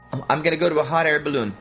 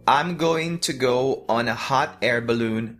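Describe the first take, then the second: First: Said faster, words joined and reduced to gonna. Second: Said slowly, each word full and separate. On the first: "então você junta mais a palavra" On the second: "Tô falando bem devagarzinho"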